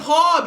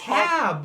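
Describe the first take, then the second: First: The vowel is an open 'o' sound, like hob. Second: The vowel is a front 'a' sound, like hab. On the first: The speaker calls it wrong. "Why do you say it hob? It's not H O B" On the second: The speaker calls it right. "it's hab"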